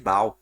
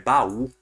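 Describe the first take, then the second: First: It is one syllable, stressed on the A. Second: It is two syllables, stressed on the U. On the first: It is the sound found in berimbau. "é o baú de berimbau" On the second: It is the word meaning a trunk. "tal acento no U"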